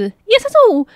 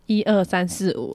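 First: It is said fast and shrill. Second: It is said at a normal speed.

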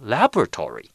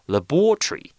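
First: It is said with an American pronunciation. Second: It is said with a British pronunciation.

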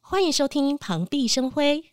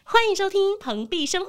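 First: It is slightly lifted, without laughter. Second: It is said happily, with a real smile.

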